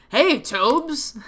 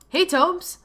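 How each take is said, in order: First: A hint of a cheerful older brother greeting; lightly voiced, cheerful call to his sibling; cheerful big brother. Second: Said in the usual way. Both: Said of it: "A cheerful, deep voice yelled".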